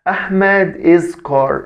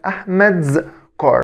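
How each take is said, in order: First: The s is said as a separate syllable. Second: The s is attached directly to the name. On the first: The speaker calls it wrong. "ما اقولش احمد از كار" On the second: The speaker calls it right. "امال اسمها احمد's كار"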